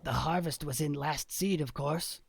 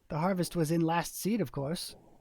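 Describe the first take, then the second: First: It is read in a put-on character voice. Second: It is read in the narrator's ordinary voice. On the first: The speaker calls it right. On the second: The speaker calls it wrong.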